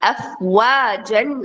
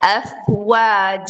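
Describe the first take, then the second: First: The word ends with an n sound. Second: The word ends in a drawn-out vowel. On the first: The speaker calls it wrong. "அஃப்வாஜன் அப்படின்னு சொல்லக்கூடாது" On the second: The speaker calls it right. "Two counts நீட்டி தான் நம்ம ஸ்டாப் பண்ணுவோம்"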